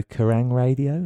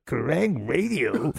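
First: Said in the usual way. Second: Very slow, drawn-out puzzled question; slow puzzled drawl. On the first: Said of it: "Johnny would go". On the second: Retold or imitated. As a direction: stretch it out, baffled and slow. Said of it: "He's like".

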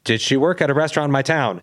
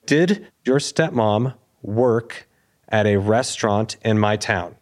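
First: Higher, at normal pace without halting; pressing question. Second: Very slow, halting question in chunks; stunned, halting. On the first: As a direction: repeat the question as if needing an answer now. Repeats the question, pressing for answer. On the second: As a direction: act out struggling to get the question out. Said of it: "stuttering at this point". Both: Retold or imitated.

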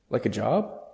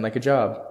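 First: Job said with a rising question tune; questioning rise. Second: Job said with a firm falling tune; falling statement. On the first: Confused caller asks back. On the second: Host repeats it back flatly. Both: A narrator's reading.

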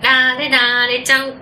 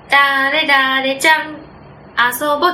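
First: 「誰々ちゃん」 drawn out slowly in the familiar sing-song rhythm of calling a friend to play; natural rhythm of calling a friend out. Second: 「誰々ちゃん」 slow, then a long pause before 「遊ぼう」, breaking the usual call rhythm; deliberately mistime the friend call so it feels wrong; awkward pause breaking the call. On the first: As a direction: call the friend's name in the natural playground lilt. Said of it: "絶対そのリズムありますよね". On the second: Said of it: "「おいおいおいおい」 みたいになるじゃないですか". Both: Shown as a demonstration.

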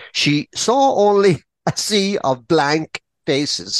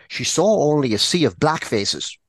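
First: "blank" set apart in a slow, higher retake; corrected word stressed. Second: Said in the usual way. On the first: A narrator's reading. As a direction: say it slowly and carefully, landing on "blank". Corrects misread word, slower.

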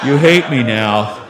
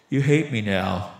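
First: Low, slow, much louder lament; loud dejected friend. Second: Low, slow, glum voice; dejected friend. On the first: Friend repeating himself after the choking, loud and dejected. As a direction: moan it loudly, low and drawn out. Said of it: "he goes". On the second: Friend after choking his buddy, low and dejected. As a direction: drag it out low and sorry for yourself. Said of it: "buries his head in his hands". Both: Retold or imitated.

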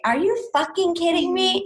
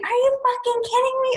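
First: Higher-pitched incredulous question; mock-stunned reaction, not yet screamed; retold disbelief. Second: Squealed incredulity, held high throughout; retold scream. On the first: Retelling her shocked proposal reaction. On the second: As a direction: imitate a shriek of disbelief without full volume. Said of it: "I'm just screaming".

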